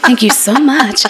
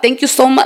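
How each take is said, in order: First: It is said in a formal, put-on voice. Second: It is said in a casual, relaxed voice.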